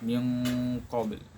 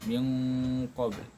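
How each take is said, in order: No difference in how they are said.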